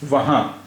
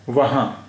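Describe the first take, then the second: Both takes have the same delivery.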